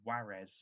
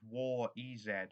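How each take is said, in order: First: The name is said as one blended word. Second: The name is said with separate letter sounds. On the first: "as someone once pronounced it" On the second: "We have War E Z"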